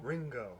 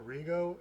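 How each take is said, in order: First: The word is said with an n sound. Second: The word is said without an n sound. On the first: The speaker calls it right. "there's an N in there" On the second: The speaker calls it wrong. "You're saying Rigo, and it's there's an N in there"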